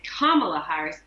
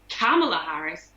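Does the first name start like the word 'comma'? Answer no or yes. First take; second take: yes; no. First: The name begins like the word comma. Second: The name does not begin like comma. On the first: This is the way the name's owner says it. The speaker calls it right. "they say it's Kamala Harris" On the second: This is the way a critic said it. The speaker calls it wrong. "Tucker Carlson said Kamala Harris"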